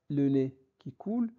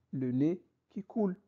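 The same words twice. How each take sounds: The two takes are said the same way.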